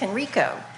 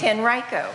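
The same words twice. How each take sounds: First: The name is said the commonly heard way. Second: The name is said the way locals say it. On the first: This is how outsiders usually say it. The speaker calls it wrong. "everybody says it's" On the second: This is how the people who live there say it. The speaker calls it right. "No, it's"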